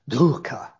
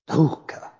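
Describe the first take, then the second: First: It is pronounced with traditional Sanskrit sounds. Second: It is pronounced with traditional Sanskrit sounds.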